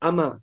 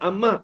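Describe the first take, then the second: First: The m sound is short and single. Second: The m sound is held long and doubled. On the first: "dibacakan dengan takhfif mim" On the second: "Yang macam amma"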